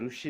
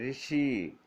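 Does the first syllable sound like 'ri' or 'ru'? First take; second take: ru; ri. First: The first syllable is said like 'ru'. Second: The first syllable is said like 'ri'. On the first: The speaker calls it wrong. "तो ये ऋषि नहीं होगा" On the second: The speaker calls it right. "रू का उच्चारण री जैसा होगा"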